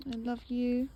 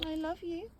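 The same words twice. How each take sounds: First: Said in the usual way. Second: Higher sing-song cooing at the cat; cooing pet voice. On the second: Real, not acted. Cooing love to her cat, lifted. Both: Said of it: "repeated to cat, higher second".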